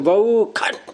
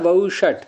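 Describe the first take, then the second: First: The second syllable starts with a 'kh' sound. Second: The second syllable starts with a 'sh' sound. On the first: This follows a southern ritual tradition. "श को ख बोलने की ... तो ऐसे बोलेंगे कि" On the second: This is the actual form of the word. "शब्द क्या है"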